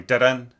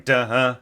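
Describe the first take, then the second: First: DA-DUN as two separately attacked notes, raised in pitch; re-articulated notes. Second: DA-HUH held through, with a pushed pulse on "huh"; accented tie. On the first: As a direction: sound out "da-dun", striking the second note afresh. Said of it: "have to get rid of the tie". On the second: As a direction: sound out "da-huh", re-accenting by breath alone. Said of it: "a tie with an accent". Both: Shown as a demonstration.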